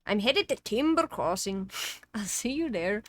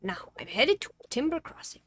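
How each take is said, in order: First: Louder retry of the character voice; game character voice. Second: Lightly put-on character voice, higher; a first, wobbly go at the character; game character voice. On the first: Acted. Game character announcing departure, louder put-on voice. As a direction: have a firmer go at the put-on voice. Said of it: "what was the fucking voice that I was doing for him". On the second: Game character announcing he is headed off, in an uncertain put-on voice. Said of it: "what was the fucking voice that I was doing".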